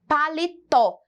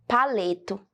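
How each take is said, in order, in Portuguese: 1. A sílaba tônica é a última. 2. A sílaba tônica não é a última. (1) "Colocando o acento, nós temos então a palavra com a grafia correta" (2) "se nós esquecermos aqui um, por um minuto o acento"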